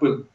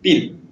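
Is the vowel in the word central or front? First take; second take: central; front. First: The vowel is the central Russian ы sound. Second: The vowel is a front ee sound. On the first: The speaker calls it right. "как я произносил слово «пыл»" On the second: The speaker calls it wrong. "я произносил так «пил»"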